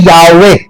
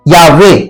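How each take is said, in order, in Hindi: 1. इस नाम को दो अक्षरों में बोला जाता है, ya-ve। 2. इस नाम को दो अक्षरों में बोला जाता है, ya-ve।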